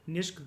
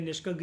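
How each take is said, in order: First: The final vowel is silent, ending on 'k'. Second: The word ends with a clear final 'a' vowel. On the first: "ए को silent करके generally pronounce करा जाता है" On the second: "आप इसको निष्का या निष्का ग्रीवा भी बोल सकते हो"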